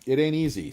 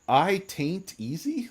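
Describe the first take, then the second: First: The words are split as 'it ain't easy'. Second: The words are split as 'I taint easy'. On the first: The speaker calls it right. "I remembered your name this time" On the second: The speaker calls it wrong. "I was pronouncing it taint"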